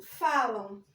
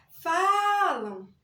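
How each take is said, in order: First: Said in the usual way. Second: FALAM called out loud, first syllable drawn long; mock yell stretching the FA in "falam"; simulated shout. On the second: Shown as a demonstration. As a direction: shout "falam" slowly, holding the stressed first A. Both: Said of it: "simulando um grito".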